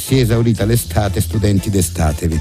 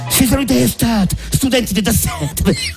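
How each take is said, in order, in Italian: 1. I suoni S e T sono semplici. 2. I suoni S e T sono aspirati.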